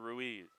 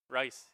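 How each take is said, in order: First: The name is said as two syllables, roo-EEZ. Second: The name is said as one syllable, rice. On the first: The speaker calls it wrong. "I've been saying Ruiz all year long" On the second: The speaker calls it right. "R U I S, Rice, just how you drew it up"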